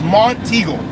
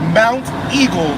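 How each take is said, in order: First: The first part sounds like 'mont'. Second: The first part sounds like 'mount'. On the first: The speaker calls it right. "it is Montego" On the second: The speaker calls it wrong. "it is not Mount Eagle"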